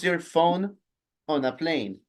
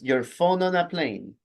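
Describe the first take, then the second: First: The words are said separately, without linking. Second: The words are linked smoothly into each other. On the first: The speaker calls it wrong. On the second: The speaker calls it right.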